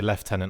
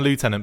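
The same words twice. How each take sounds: First: It is said with a British pronunciation. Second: It is said with an American pronunciation.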